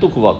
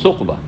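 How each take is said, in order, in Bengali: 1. শব্দটি একটি সাধারণ t ধ্বনি দিয়ে শুরু। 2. শব্দটি th ধ্বনি দিয়ে শুরু। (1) "তুকবা করে দিয়েছে" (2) "আসলে সুকবা"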